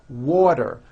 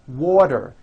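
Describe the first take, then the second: No difference in how they are said.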